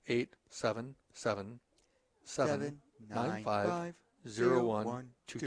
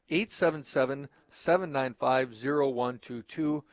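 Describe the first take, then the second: First: The number is said at a slower pace. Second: The number is said at a faster pace.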